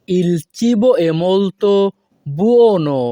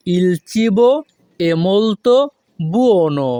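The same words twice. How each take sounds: First: Slow, careful Italian; slow model phrase. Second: "Il cibo" "è molto" "buono" with pauses; broken in chunks. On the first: Teacher modelling the Italian slowly for students. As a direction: draw it out for learners. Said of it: "model then broken". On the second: Teacher repeating the phrase in chunks. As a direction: chop into chunks. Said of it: "broken repeat". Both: Shown as a demonstration.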